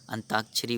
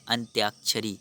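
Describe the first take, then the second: First: The 't' is followed directly by 'aa'. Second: The 't' is followed by a 'y' sound. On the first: The speaker calls it wrong. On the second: The speaker calls it right.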